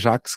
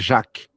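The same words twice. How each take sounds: First: The name ends with an S sound. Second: The name ends without an S sound. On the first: This is the established Portuguese pronunciation. "Se consagrou falar Jacques Klein em português" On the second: This is the original French pronunciation. "em francês se fala Jacques, sem o S"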